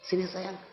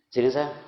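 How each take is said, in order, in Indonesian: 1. Diucapkan dengan lembut dan hangat, sambil tersenyum. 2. Diucapkan dengan tajam dan keras, tanpa kehangatan. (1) "kata-katanya lembut ... Dia berbicara dengan senyuman" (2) "tiga katanya sama, tapi cara ngomongnya yang beda"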